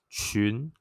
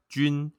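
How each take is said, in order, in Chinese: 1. 从低升到高。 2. 声调高而平。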